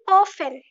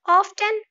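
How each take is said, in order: First: The 't' is silent. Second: The 't' is sounded. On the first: The speaker calls it right. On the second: The speaker calls it wrong.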